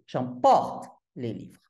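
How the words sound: Only one word in the sentence carries stress. "il n'y a qu'un seul mot accentué"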